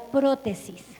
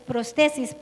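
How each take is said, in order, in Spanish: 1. Se pronuncia a la manera española. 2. Se pronuncia a la manera inglesa. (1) "lo voy a pronunciar como sería en español" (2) "en inglés pues es prostesis"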